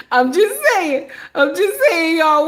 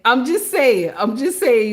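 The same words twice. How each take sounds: First: Laughing. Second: Said in the usual way. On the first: Real, not acted. Laughing through repeated phrase.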